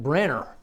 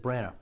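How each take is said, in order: First: The name is said with an 'er' sound. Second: The name is said without an 'er' sound. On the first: "who said Branagh with an E R" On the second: "The internet says Branagh"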